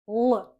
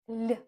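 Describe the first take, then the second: First: The l sound is hard. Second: The l sound is very soft. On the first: "we pronounce it hard" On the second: "we pronounce it like l, super soft"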